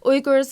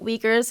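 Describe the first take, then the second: First: The name is said in a Turkic-style way. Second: The name is said in the common English way. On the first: "the way that I pronounce it because I'm in the Turkish language" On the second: "the way you pronounced it"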